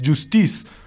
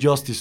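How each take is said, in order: First: It is pronounced the French way. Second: It is pronounced the English way. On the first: The speaker calls it right. "porque es un nombre en francés" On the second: The speaker calls it wrong. "no es Justice en inglés"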